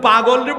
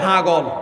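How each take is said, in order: First: It starts with a p sound, standard Bengali. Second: It starts with an h sound, Feni dialect.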